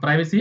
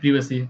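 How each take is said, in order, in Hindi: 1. पहले अक्षर में लंबा 'eye' स्वर है। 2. पहले अक्षर में छोटा 'i' स्वर है। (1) "अमेरिकन एक्सेंट है" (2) "ब्रिटिश इंग्लिश में लोग बोलते हैं"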